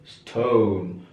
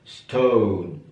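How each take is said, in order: No difference in how they are said.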